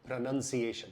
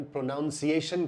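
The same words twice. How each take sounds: First: प्रोनाउंसिएशन said pro-nun-ciation, no ou sound; प्रोनाउंसिएशन with a short nun, no o; correct pronunciation. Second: प्रोनाउंसिएशन said pro-NOUN-ciation with the ou of pronounce; the common wrong प्रोनाउंसिएशन, pronounce-iation; wrong Indian way. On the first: Scene: teacher giving the right form to viewers, careful. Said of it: "इसका सही उच्चारण है". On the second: Scene: teacher showing the wrong version to viewers, demo. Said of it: "अगर आपने इसका उच्चारण ... किया, तो वो गलत है". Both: Shown as a demonstration.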